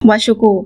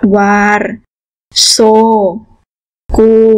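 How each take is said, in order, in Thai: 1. "r" กับ "s" รวมกันเป็นเสียง "sh" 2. "r" กับ "s" ออกเสียงแยกกันเป็นสองเสียง (1) "เชื่อมระหว่างวารกับโซทีนี้เราก็จะออกเสียงว่าวาชูกู" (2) "มีสามคำอยู่ในประโยคนี้คือคำว่าวารโซกู"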